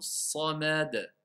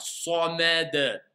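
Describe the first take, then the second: First: Each letter is articulated clearly at moderate speed. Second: Each letter is overemphasized and drawn out heavily. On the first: The speaker calls it right. "je vais dire Allahu samad ... on entend bien le mot as-samad" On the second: The speaker calls it wrong. "Sans exagérer, hein. J'ai pas besoin de faire samad"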